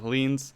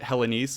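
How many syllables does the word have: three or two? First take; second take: two; three. First: The word is said with two syllables. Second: The word is said with three syllables. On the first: The speaker calls it right. "we'll retroactively correct that to Hellenes" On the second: The speaker calls it wrong. "I had pronounced it Hellenese, which people were questioning if that was even a real word"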